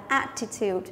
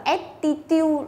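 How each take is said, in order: First: "attitude" with an open first vowel, "AT-i-tyoot"; correct attitude. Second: "attitude" with an "e" first vowel, "et-ti-tiu"; mispronounced attitude. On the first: Teacher models for students "attitude" pronounced "AT-i-tyoot". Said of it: "chúng ta phải đọc là attitude". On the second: Teacher mimics students' common mistake, mispronouncing "attitude" as "et-ti-tiu". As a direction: say "attitude" slowly as "ET-ti-tiu", syllable by syllable. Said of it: "Nhiều bạn đọc là attitude là sai". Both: Shown as a demonstration.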